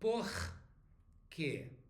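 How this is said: The r in por is strong. This is how people in Rio say it. "In Rio, it may be por quê"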